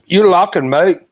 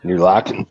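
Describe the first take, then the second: First: Higher, louder mock Australian; put-on Australian accent, pitched up. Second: Said in the usual way. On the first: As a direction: throw it back as a loud Aussie. Joins in the Australian accent game.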